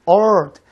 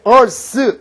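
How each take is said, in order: First: The final th sound is weakened or dropped. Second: The final th sound is clearly pronounced. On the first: "미국식 발음할 때 earth, earth, th 발음 죽어요" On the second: "보통 이제 우리가 발음할 때 earth 이렇게 얘기하지 않습니까?"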